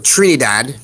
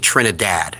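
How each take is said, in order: First: The last syllable does not sound like 'dad'. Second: The last syllable sounds like the word 'dad'. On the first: The speaker calls it right. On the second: The speaker calls it wrong.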